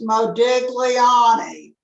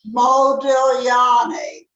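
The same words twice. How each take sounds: First: The g is sounded as a hard g. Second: The g is not sounded separately. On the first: The speaker calls it wrong. "his name is not pronounced Modigliani" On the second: The speaker calls it right. "It is pronounced Modigliani"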